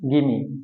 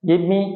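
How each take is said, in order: First: The two words merge into one reduced word. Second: The two words are said separately and fully. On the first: "সংক্ষেপে" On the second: "সংক্ষেপে আরেকবার সবগুলা একবার করে উচ্চারণ করছি"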